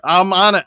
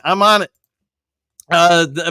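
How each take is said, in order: First: Said in the usual way. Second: Quick mock French accent. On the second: Shown as a demonstration. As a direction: toss off the line in a put-on French accent. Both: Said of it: "to put a French accent in there".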